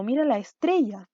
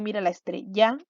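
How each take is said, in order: First: "estrella" as es-TRE-lla, falling after TRE; natural middle beat on TRE in "estrella"; stress on middle syllable. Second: "estrella" misstressed as estre-LLÁ; stress on last syllable. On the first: Teacher giving the correct version, "estrella" stressed on TRE. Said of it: "Al medio, en grave". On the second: Teacher trying a wrong version, "estrella" stressed on final LLA. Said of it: "vamos a ver dónde golpea más fuerte el sonido". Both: Shown as a demonstration.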